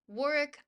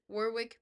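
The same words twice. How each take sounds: First: The second W is silent. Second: The second W is pronounced. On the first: This is the accepted local pronunciation. "It's pronounced Warwick" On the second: This is a deliberate personal choice against convention. "I pronounce it Warwick because I refuse to acknowledge that the U K cannot remember to pronounce the other W"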